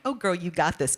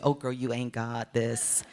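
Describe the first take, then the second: First: Confident. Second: Deflated. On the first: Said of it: "I went from being like". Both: Retold or imitated.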